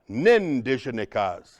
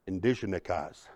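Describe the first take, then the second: First: The word starts with a clear N sound. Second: The starting N sound is nearly silent. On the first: This is how some dialects say it. "some dialects you'll hear the nindigenikas" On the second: This is how other dialects say it. "it's a little silent, but it's there"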